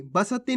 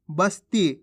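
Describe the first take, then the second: First: बसती in three beats, "ba-sa-ti"; गलत उच्चारण. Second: बस्ती in two beats, "bas-ti"; सही उच्चारण. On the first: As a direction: misread बसती with a full vowel after स. (बसती में स पूरा बोलकर) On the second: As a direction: say बस्ती with स joined straight to ती. (बस्ती में आधा स, ती से जुड़ा) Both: Shown as a demonstration. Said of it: "बसती नहीं".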